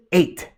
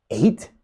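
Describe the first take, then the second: First: Short, matter-of-fact answer; dead serious. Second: Stunned question with a rising end; questioning disbelief. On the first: Photographer answering the speaker's challenge, dead serious. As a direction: state it dead seriously, no question in it. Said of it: "looks at me dead serious". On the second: Speaker stopped dead by the answer, questioning it. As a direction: echo it back as a puzzled question. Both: Retold or imitated.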